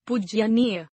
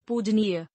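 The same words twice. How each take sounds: First: पूजनीय as "pujyaneeya" with short u and extra ya; mispronounced. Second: Said in the usual way. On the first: Shown as a demonstration. Teacher showing an error, mispronounced as pujyaneeya. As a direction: add a ya inside पूजनीय. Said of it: "अनशुद्ध". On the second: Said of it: "शुद्ध".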